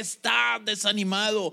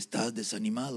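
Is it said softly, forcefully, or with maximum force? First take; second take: maximum force; softly. First: It is said with the greatest possible force. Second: It is said at a normal, plain volume.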